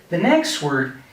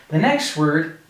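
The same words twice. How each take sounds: No difference in how they are said.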